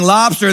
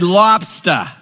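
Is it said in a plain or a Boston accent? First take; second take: plain; Boston. First: It is said in a plain accent. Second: It is said in a Boston accent.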